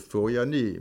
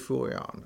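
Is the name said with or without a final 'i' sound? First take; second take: with; without. First: The name ends with a final 'i' sound. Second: The name ends without a final 'i' sound.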